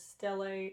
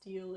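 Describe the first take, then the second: First: It is said as two syllables, stel-ee. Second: It is said as one syllable, like steel. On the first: The speaker calls it right. "it is stele" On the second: The speaker calls it wrong. "It is not pronounced steel"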